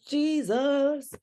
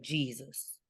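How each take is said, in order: First: Mock-shocked exclamation, voice way up; high-pitched dismay. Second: Low-key exclamation under the breath; hushed dismay. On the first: Repeats the reaction, pitched far up. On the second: Retold or imitated. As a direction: say it softly, taken aback. Speaker reacts twice to the story.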